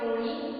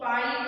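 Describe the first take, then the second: First: The first vowel is a rounded 'o'. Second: The first vowel is an open 'aa'. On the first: This is the Patani dialect pronunciation. "ઓ જેવું સંભળાય છે" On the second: This is the standard pronunciation. "આ હોય"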